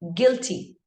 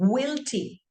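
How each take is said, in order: First: The u is silent after the g. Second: The u is sounded after the g. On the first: The speaker calls it right. "So you got to do it as guilty" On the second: The speaker calls it wrong. "when you apply the U, it becomes guilty. And that's the wrong pronunciation"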